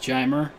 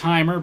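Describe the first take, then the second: First: The name begins with a J sound. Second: The name begins with an H sound. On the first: The speaker calls it right. "he likes it pronounced Jeimer" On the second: The speaker calls it wrong. "I thought it was Heimer"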